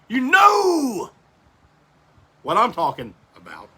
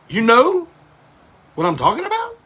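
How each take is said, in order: First: The voice falls at the end. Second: The voice rises at the end.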